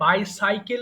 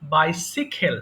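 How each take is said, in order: First: The second syllable sounds like 'sai'. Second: The second syllable sounds like 'si'. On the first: The speaker calls it wrong. "এটাও কিন্তু ভুল উচ্চারণ করি" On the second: The speaker calls it right. "এটা কিন্তু সঠিক উচ্চারণ"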